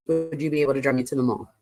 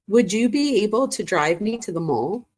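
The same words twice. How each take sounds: First: Low, rapid read-through; quick recap. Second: Higher, unhurried asking voice. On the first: Quickly rereads the emphasized text. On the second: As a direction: read the request out with a rising end. Reads out girl's texted request. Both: Retold or imitated.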